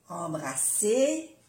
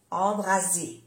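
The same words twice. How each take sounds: First: "embrasser" slowly, with an unvoiced s; double S. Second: "embrasser" said with a voiced z; soft Z. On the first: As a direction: draw out "embrasser" with a hissed s, ending up. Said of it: "embrasser es abrazar". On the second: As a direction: say "embrasser" with a buzzing z, falling. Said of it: "y embraser es incendiar". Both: Shown as a demonstration.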